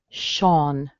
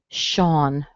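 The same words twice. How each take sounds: Both takes have the same delivery.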